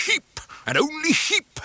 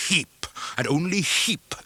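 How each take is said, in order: First: "Heap, and only Heap," much higher, the first Heap punched; emphatic higher repeat. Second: "Heap, and only Heap," with only lifted, close to the usual voice; stress on only. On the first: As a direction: hit "Heap" hard and high, the repeat topping the first. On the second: First take of the refrain. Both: A narrator's reading.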